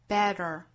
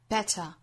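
First: The middle t is a quick tongue tap. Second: The middle t is a clear, aspirated burst. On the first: "中间的这个 t 是发成弹舌的" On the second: "这个 T 的发音哈，我们要注意是一个很清晰的爆破送气音"

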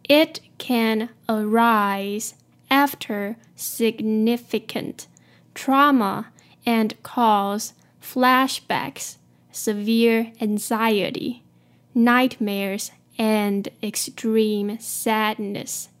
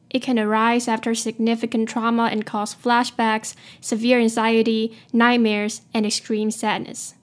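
First: The sentence is read at a slower pace. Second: The sentence is read at a faster pace.

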